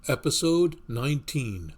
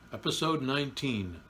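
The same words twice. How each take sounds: First: Loud, higher horror announcer; horror host. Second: Said in the usual way. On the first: Acted. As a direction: announce it like a creepy movie trailer. Horror-style show title intro.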